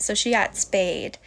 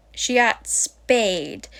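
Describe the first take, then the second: First: Said in the usual way. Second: "got" stressed, said slowly; slow, careful "She got spayed". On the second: Shown as a demonstration. Correcting the wrong term, slow stress on "got". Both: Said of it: "I always say the wrong term".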